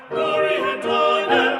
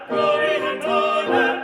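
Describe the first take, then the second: No difference in how they are said.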